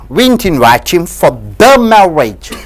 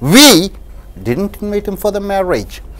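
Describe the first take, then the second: First: The stress falls on the word "the". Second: The stress falls on the word "we". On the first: It was a different marriage. "if you stress the word the" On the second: Someone else invited him. "when you stress the word we"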